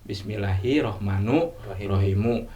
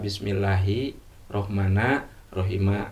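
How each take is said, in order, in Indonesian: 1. Kedua kata terakhir berakhir dengan vokal u. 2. Kedua kata terakhir berakhir dengan vokal a. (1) "bisa dibaca domah dua-duanya" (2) "Bisa patah dua-duanya"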